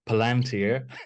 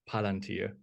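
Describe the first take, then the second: First: The word is pronounced in an English way. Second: The word is pronounced in a German way. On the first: This is how the film actor says it. "according to Sir Ian McKellen, it's Palantir" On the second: This is how the speaker imagines it. "like more Germanish"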